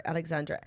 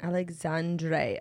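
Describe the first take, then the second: First: "Alexandre" with a short "druh" ending, soft; low, soft "Alexandre", last syllable "druh"; correcting pronunciation. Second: "Alexandre" slowly, ending in "dray"; low, drawn-out "Alexandre" with a "dray" ending; sounding out name. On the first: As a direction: try "Alexandre" again, clipped to "druh" at the end. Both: Shown as a demonstration. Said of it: "Oh, it's not Der".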